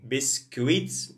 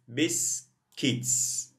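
First: A 'w' sound follows the k. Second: There is no 'w' sound after the k. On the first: The speaker calls it wrong. "We don't say you. Biscuits, no" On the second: The speaker calls it right. "U is silent"

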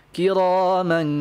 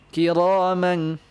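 Both takes have the same delivery.

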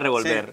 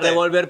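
First: The stress is on the last syllable. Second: The stress is on the middle syllable. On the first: It names the verb to stir, which was the answer. "pero era revolver" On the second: It names the gun, which was not the answer. "la tilde o no la tilde, la última palabra no era revolver. No era revolver"

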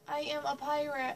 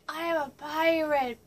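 First: It is said in the speaker's normal voice. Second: It is said in a put-on pirate voice.

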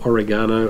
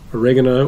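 First: The word is said in the Australian pronunciation. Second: The word is said in a non-Australian pronunciation.

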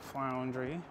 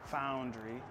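First: An L sound follows the F. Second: No L sound follows the F. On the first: The speaker calls it wrong. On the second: The speaker calls it right.

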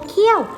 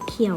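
First: The syllable has a falling tone. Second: The syllable has a low tone. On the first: "ไม่โท" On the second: "ไม่เอก"

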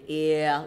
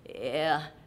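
First: The vowel is said with a clear voice. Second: The vowel is said with a creaky voice. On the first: The speaker calls it right. "speak it clearly and sing it clearly, ear, like that" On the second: The speaker calls it wrong. "Vocal fry sounds something like this"

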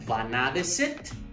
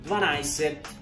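First: Every syllable of the word is said in full. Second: The middle of the word is contracted and shortened. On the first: This is the form used in writing. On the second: This is the form used in everyday speech.

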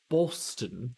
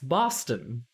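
First: The first vowel is a rounded 'oh' sound. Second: The first vowel is an open 'ah' sound. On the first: The speaker calls it wrong. "not an O. You don't say Boston" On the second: The speaker calls it right. "that's how you pronounce Boston. It's an ah sound"

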